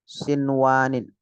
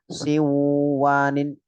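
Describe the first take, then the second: First: The n sound is pronounced clearly and separately. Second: The n sound merges nasally into the next sound. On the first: The speaker calls it right. "Nah itu" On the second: The speaker calls it wrong.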